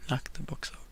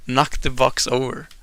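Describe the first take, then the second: First: Hushed under-breath suggestion; whispered. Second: Said in the usual way. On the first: Real, not acted. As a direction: knock the box over, unvoiced and much softer. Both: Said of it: "repeated choice".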